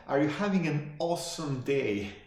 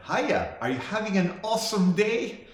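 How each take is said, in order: First: "having" picked out, higher pitch, falling end; pointed requote. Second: Imitating an over-eager server, high and rising; high-pitched customer-service greeting, lifting on the question; chirpy counter girl. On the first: Retold or imitated. Customer quoting the counter girl's question back, pointed. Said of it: "Not, "How are you doing today?". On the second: Counter girl greeting a customer at Jack in the Box, chirpy. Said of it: "the girl behind the counter said".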